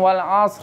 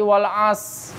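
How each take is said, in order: First: The word ends with a final r sound. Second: The word ends on s with no r. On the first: "ada yang wal asr. Gitu doang" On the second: "Ada yang parah lagi wal as. Hilang ro-nya"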